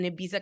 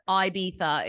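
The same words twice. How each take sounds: First: It is said with an American accent. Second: It is said with a British accent.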